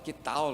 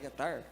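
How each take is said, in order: First: The word ends with an L-like sound. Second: The word ends with an R-like sound. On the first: This is how it is said in the south. "a gente fala que tal" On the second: This is how it is said in the north. "Aqui no norte não é que tar?"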